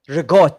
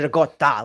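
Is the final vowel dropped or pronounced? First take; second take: dropped; pronounced. First: The word ends without its final vowel. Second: The word ends with its final vowel sounded. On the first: The speaker calls it wrong. "regot instead of regotta" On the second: The speaker calls it right. "Like why not just add the fucking letter at the end and actually say it right?"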